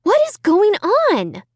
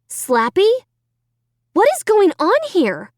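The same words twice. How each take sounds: First: High, slow, alarmed; bewildered. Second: High, alarmed question; bewildered. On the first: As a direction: ask again, more spooked. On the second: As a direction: demand an answer from the dummy. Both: A narrator's reading. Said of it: "I asked out loud".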